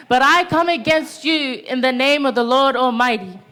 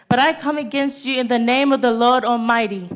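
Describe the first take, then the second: First: Forceful stress on "But I come against you"; emphatic repeat. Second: Said in the usual way. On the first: Real, not acted. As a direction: declare it, leaning hard on "I" and "you".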